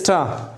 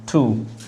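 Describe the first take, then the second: First: The vowel is a short, reduced 'uh' sound. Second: The vowel is a full, long 'oo' sound. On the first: The speaker calls it right. "the correct pronunciation of this is a ta, not two" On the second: The speaker calls it wrong. "Two is that one"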